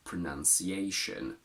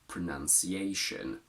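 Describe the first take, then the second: First: The two O vowels are reduced to schwa. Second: The two O vowels are reduced to schwa.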